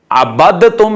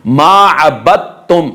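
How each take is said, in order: First: अबदतुम with d sounded before t; wrong separate daal. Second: अबदतुम said slowly as "abattum"; merged daal. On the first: Teacher showing the error, wrong separate daal. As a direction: release the d in अबदतुम, unmerged. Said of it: "नहीं पढ़ेंगे". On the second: Teacher modelling the rule, merged daal. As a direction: swallow the d of अबदतुम into a doubled t. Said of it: "दाल का ता में इदगाम हो जाएगा". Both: Shown as a demonstration.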